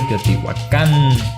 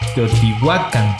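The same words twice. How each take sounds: First: The stress falls off the second-to-last syllable. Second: The stress falls on the second-to-last syllable. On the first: The speaker calls it wrong. "en lugar de" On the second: The speaker calls it right. "todas las palabras son graves"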